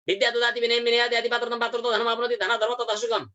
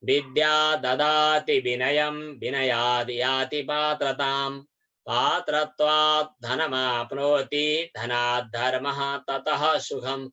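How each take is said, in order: First: The verse is recited at a very fast pace. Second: The verse is recited at a moderate pace.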